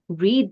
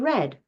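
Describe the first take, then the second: First: The vowel is long, like in 'reed'. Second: The vowel is short, like in 'red'. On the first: The action happens now. "we can read the book" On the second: The action already happened. "the book has been read"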